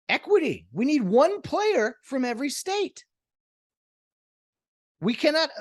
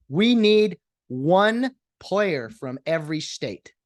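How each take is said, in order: First: High, sing-song mock announcement; high mocking policy voice; mock earnest voice. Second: Said in the usual way. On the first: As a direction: parody a diversity slogan.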